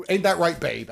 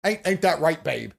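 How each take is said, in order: First: Lightly voiced smug partner pressing for agreement; mock smug partner, repeated. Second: Lightly voiced smug partner fishing for agreement; mock smug partner. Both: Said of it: "They're gonna sit here and go".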